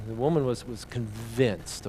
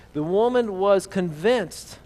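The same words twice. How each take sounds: First: "convinced" slowed right down and lowered; pause, then lay "convinced" out slow and heavy; pointing the congregation to the word "convinced"; stress on convinced. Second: Woman and convinced drawn out, louder and higher; reading the line with weight. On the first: Shown as a demonstration. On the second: Acted. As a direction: lean on "convinced" slowly. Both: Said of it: "I want you to look at a few words here".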